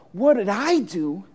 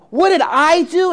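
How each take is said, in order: First: Questioning rise, held back; mildly stunned little girl asking back; girl's startled reply. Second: Higher and louder, hit the word did; indignant child demanding an answer; girl's outraged cry. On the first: Girl turning the gardener's question back, still contained. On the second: Girl accusing the gardener back, outraged shout. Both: A narrator's reading.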